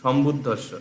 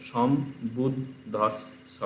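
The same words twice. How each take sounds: First: Said in the usual way. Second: সম্বুদ্ধস্ব very slowly as som - bud - dhos - so; slow, divided সম্বুদ্ধস্ব; cut into syllables. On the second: Shown as a demonstration. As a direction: break সম্বুদ্ধস্ব at each double consonant: som, bud, dhos, so. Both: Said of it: "একটা একটা করে কাটতে থাকবে".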